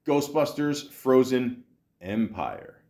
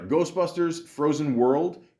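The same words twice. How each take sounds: First: Empire said slower and weighty; stress on Empire. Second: Said in the usual way. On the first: Shown as a demonstration. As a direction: lean into Empire to make it sound grander. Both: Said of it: "I did put a little emphasis on Empire".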